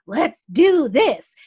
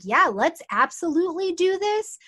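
First: Loud, slow, fired-up rally cry; like Mars ready to charge in; drawn-out loud hype call; pumped up. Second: Higher, easygoing yes; laid-back, happy agreement; slowed-down eager. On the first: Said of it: "he's pumped, he's powered". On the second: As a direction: still keen but relaxed. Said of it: "he's slowed down a little bit". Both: Retold or imitated.

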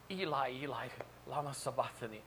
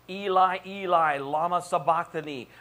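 First: Soft, hushed Aramaic plea; subdued cry from the cross. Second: Loud, raised cry in Aramaic; crying out from the cross. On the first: Preacher voicing Jesus on the cross, subdued cry. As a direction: let the cry out softly and solemnly. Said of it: "Jesus cried out". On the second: Preacher voicing Jesus hanging on the cross, loud cry. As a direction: call it out loudly as an anguished plea. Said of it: "while hanging on the cross". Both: Acted.

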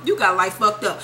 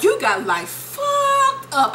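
First: Lower, matter-of-fact put-down; dismissive verdict. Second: Very high, slow, drawn-out indignation; mock outrage. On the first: Retold or imitated. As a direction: close the wife's rant low and firm. Wife's line repeated, settling lower. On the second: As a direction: stretch it out as the outraged wife. Voicing wife's outburst in divorce hearing.

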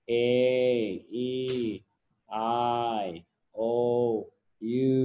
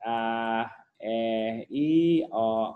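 First: "A E I O U" as long letter names; long vowel sounds. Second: "A E I O U" as basic letter sounds, not names; earlier vowel sounds. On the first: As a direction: stretch each of "A E I O U" like its alphabet name, spaced apart. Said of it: "อันนั้นคือเสียงยาวหรือว่า". (อ่าน "A E I O U" เสียงยาวเหมือนชื่ออักษร) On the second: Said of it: "เมื่อก่อนเสียง". (อ่าน "A E I O U" เป็นเสียงพื้นฐาน ไม่ใช่ชื่ออักษร) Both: Shown as a demonstration.

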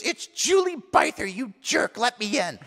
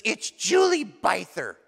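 First: High, put-on outraged girl; mock an angry girl demanding entry; indignant mimicked girlfriend. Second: Slow, lightly put-on girl at the door; lightly voiced girlfriend. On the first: Drenched girlfriend at the door, mock indignant. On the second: Girlfriend announces herself at the door, lightly mimicked. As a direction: draw out the name as a mock visitor.

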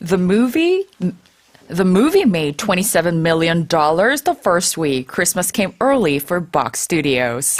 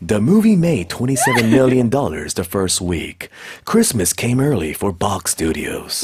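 First: Measured news read; news anchor voice. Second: Slow movie trailer narrator. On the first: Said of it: "한번 뉴스처럼 읽어주실래요?". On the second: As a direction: deliver it like a trailer announcer. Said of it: "예고편 아저씨 목소리가 더 어울려". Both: Shown as a demonstration.

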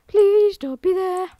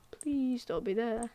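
First: Higher, slow desperate plea; raised pitch, drawn-out pleading. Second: Hushed, slow, nervous hope; murmured under the breath, much softer; quiet plea. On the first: Same plea repeated higher, louder. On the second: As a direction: barely breathe the words, praying. Hoping quietly, then pleading louder. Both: Real, not acted.

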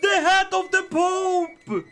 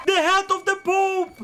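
First: High, slow drawn-out crow; savoring the win loudly; slow gloating shout. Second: High shouted boast; gleeful yell; triumphant shout. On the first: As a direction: stretch HAT out in triumph. Repeat drawn out. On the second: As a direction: crow it at the top of your voice. Triumphant repeat. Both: Real, not acted.

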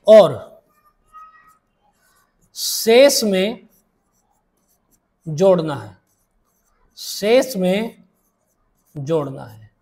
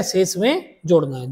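First: Drawn-out words with long pauses, dropping low at each close; slow dictation. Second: Said in the usual way. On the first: Shown as a demonstration. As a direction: dictate it slowly for students writing it down. Teacher dictates rule for note-taking.

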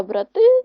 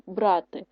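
First: БраТИ with a loud final syllable; brah-TY, loud drawn-out ending; stress on second syllable. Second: БРАти with the first syllable stressed; BRAH-ty, weight up front. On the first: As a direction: punch the ТИ of брати. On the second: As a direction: lean on БРА in брати. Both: Shown as a demonstration. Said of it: "Наголос може змінити значення слова".

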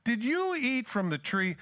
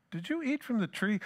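First: Slow, higher, dawning realisation on "you"; tender realising question. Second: A higher, incredulous ask, as if it can't be true; disbelieving question. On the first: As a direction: let it slowly dawn, gently. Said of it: "That would explain everything". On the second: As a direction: ask like the thought never crossed your mind. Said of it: "It's like that's the furthest thing from God's mind". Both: Retold or imitated.

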